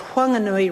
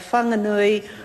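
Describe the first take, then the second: First: The name is said in the local Whanganui way. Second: The name is said in another region's way. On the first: This is how the local people want the name said. "the way uh, um, the Honourable Tariana Turia uh, pronounces it frequently" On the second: This form belongs to another part of the country. "may relate to another part of the country"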